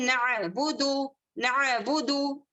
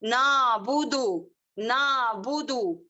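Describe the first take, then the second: First: नअबुदु slow, with the ain sounded in the throat; correct pronunciation. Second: नाबुदु said with a long plain a and no ain; common mistake. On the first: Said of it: "ये सही तलफ्फुज है". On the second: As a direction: show the error by stretching the a in नाबुदु. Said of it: "क्या गलती करते हैं?". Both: Shown as a demonstration.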